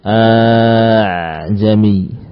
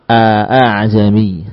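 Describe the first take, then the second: First: The second hamza becomes a long drawn-out vowel. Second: The second hamza is pronounced as a full glottal stop. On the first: "Ini kalau diganti hamzahnya dengan huruf alif" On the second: "Dibaca hamzah"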